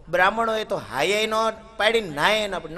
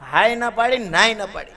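First: Said in the usual way. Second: હાય ન પાડી punched higher and louder, નાય ન પાડી settling down; emphatic repeat. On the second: A narrator's reading. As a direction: hammer the refusal home, હાય ન પાડી loud and high.

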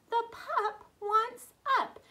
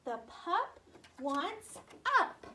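First: "The pup wants up" higher and louder; excited teacher repeat, high and loud. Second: "The pup wants up" stretched out slowly; teacher slowly drawing out the sentence. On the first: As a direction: pitch it up excitedly for the kids. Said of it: "excited repeat of sentence". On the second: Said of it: "modelling phonics sentence". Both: Shown as a demonstration.

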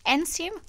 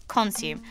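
First: "Consume?" asked with a rising tune; unsure tune. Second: "Consume." said low with a falling tune; settled fall. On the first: Checking how to say the word to friends, rising tune. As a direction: test "Consume?" like a question, rising at the end. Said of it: "checking the word aloud". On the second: Deciding on the word for friends, falling tune. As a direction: land "Consume." firmly, falling. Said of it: "settling the word". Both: Real, not acted.

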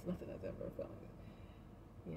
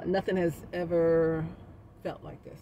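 First: The line sung in a whisper, much softer; sung, breathe the lyric almost silently; whispered singing. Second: Slow soft sung line of the love song; sung softly. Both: Pretend. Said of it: "I can't sing like [name]".

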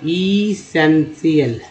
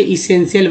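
First: essential drawn out slowly, part by part; syllable by syllable. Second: Said in the usual way. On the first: Shown as a demonstration. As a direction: break essential into slow, separate syllables. Teacher breaks word into parts.

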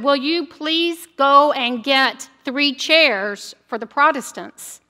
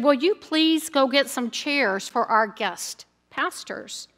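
First: Slow, over-careful, a bit louder; a little louder. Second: Softly and slowly, a hushed retold whisper; quiet request to a layperson during the service; mock whisper. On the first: Retold or imitated. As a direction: spell it out slowly to be heard. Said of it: "a little bit louder, said". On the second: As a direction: lean in and ask quietly, half-whispering. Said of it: "he whispered into one of the layperson's ear".

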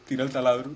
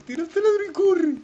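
First: Said in the usual way. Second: High panicked shout; panicked yell. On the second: Real, not acted. Urgent yell to friend.

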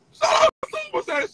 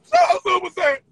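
First: Super Saiyan squealed very high; high-pitched sarcastic shout-out; mock squeal shout-out. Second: Loud jeering shout of Super Saiyan; loud mock hype call. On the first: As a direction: flip the shout-out up into a shrieking jeer. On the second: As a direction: belt the shout-out like a sarcastic hype man. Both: Mocking shout-out chant.

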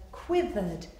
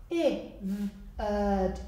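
First: Said in the usual way. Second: "quivered" broken into separate sounds, slowly; sounded out. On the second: Shown as a demonstration. Teacher showing pupils a new word, sounded out "quivered".

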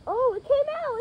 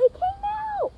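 First: High delighted cry; excited. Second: Even higher delighted squeal; more excited. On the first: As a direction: cheer at the seed popping out. Seed pops out, delighted. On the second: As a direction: top the first cry with a squeal. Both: Real, not acted.

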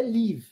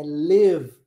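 First: "live" said "liv", short i sound; "live" with a plain i vowel; "live" with a pure i. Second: "live" said "lev", the i moving toward E; "live" with an E-like vowel. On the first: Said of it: "Não é live". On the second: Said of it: "é live". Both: Shown as a demonstration.

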